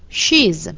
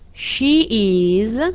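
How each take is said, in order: First: The verb is shortened and joined to the pronoun. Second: The verb is said as a separate full word. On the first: "Nella forma contratta, ... scompare la vocale iniziale del verbo" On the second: "La forma intera"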